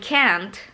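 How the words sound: The vowel is a front, flat a sound. "Tapi kalau American"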